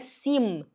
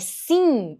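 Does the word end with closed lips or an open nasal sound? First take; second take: closed lips; open nasal. First: The word ends with the lips closing on M. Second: The word ends in an open nasal N-like sound. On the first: The speaker calls it wrong. "eu não é sim" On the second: The speaker calls it right. "é sim, é com som de N"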